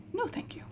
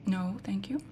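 First: High, tiny no thank you; squeaky alarmed refusal; high squeak. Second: Hushed no thank you; soft unvoiced whisper. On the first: Squeaky refusal to a game character. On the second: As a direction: whisper it so nothing hears. Whispering to a game character. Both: Real, not acted.

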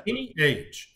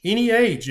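First: Said in the usual way. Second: "Any age" said higher and louder, punching "age"; emphatic repeat. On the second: Shown as a demonstration. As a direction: hammer home "Any age" with a louder, higher second take.

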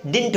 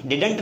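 First: Didn't एक साथ "डिन्ट", हल्की नाक की आवाज़; didn't को "डिन्ट" जैसा छोटा बोलो; correct pronunciation. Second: Didn't को "डिडन्ट" बोलना, बीच में अ जोड़कर; didn't तीन हिस्सों में, डि-ड-न्ट; wrong pronunciation. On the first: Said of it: "सुन लो ध्यान से". (सही उच्चारण: didn't = "डिन्ट") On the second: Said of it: "या फिर didn't नहीं बोलना है". (गलत उच्चारण: didn't = "डिडन्ट") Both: Shown as a demonstration.

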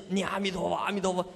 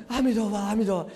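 First: Said in the usual way. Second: Quick, panicky recitation of the Buddha's name; mock fright. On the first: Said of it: "也有听到别人讲". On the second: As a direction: rattle it off as if scared. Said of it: "吓坏了". (假装吓坏了，急急地念佛)

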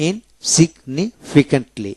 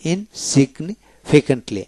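No difference in how they are said.

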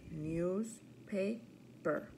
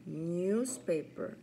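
First: Newspaper slowly split into news-pa-per; syllable by syllable. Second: Said in the usual way. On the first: Shown as a demonstration. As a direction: count out three slow beats in Newspaper. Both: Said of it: "practice our counting syllables".

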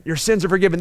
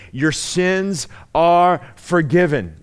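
First: Said in the usual way. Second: "your sins are forgiven" drawn out slowly; slow, solemn pronouncement. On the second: Shown as a demonstration. Preacher slowly pronouncing Jesus's words of forgiveness.

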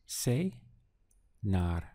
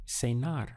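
First: Cenar said slowly, split into two clear syllables, ce-nar; slow syllable demo. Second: Said in the usual way. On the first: Shown as a demonstration. Teacher models the new word Cenar for learners, slow and syllable by syllable. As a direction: stretch out Cenar, each syllable distinct. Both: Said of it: "Just two syllables".

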